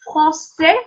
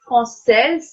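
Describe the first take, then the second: First: The final S is silent. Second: The final S is pronounced. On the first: The speaker calls it right. "we'll avoid pronouncing S" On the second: The speaker calls it wrong. "not française"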